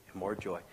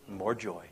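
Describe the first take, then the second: No difference in how they are said.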